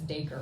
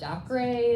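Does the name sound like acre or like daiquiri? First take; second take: acre; daiquiri. First: The name sounds like acre with a D. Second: The name sounds like the drink daiquiri. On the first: The speaker first read it this way. "like acre with a D tacked on" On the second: Many readers say it this way. "a lot of people think it's daiquiri"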